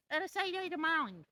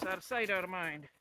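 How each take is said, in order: First: Put-on high sing-song baby talk. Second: Said in the usual way. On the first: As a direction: coo it high at the dogs. Repeats the phrase to the dogs.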